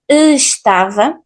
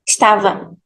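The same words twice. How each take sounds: First: Every sound is pronounced, starting on e. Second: The first vowel is dropped, starting on s. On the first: The speaker calls it wrong. "we pronunciate everything, estava, actually this way is not that normal" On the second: The speaker calls it right. "for this second option, we just drop the first letter"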